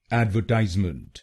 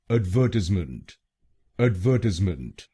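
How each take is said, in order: First: एडवर्टाइजमेंट the American way, AD-ver-TIZE-ment; एडवर्टाइजमेंट with "ad" as in "add" and "tize" as in "size"; American pronunciation. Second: एडवर्टाइजमेंट said the British way, ad-VER-tiz-ment; एडवर्टाइजमेंट with the stress on VER, British style; British pronunciation. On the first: Teacher modelling the American word for viewers. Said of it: "American pronunciation में इसको बोलेंगे". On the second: Teacher modelling the British word for viewers, careful and clear. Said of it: "British English में इसको बोलेंगे". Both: Shown as a demonstration.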